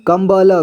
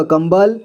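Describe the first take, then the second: First: कंबल as कं-ब-ल, final vowel voiced; spelled-out reading. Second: Said in the usual way. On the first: Shown as a demonstration. Teacher showing learners how to read, sounded out as कं-ब-ल. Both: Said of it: "इसे क्या पढ़ेंगे?".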